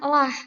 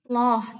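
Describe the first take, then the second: First: The syllable is pronounced thin and light. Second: The syllable is pronounced thick and heavy. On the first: "kalau dia dibaca tarkik itu bacanya" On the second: "Kalau tafkhim"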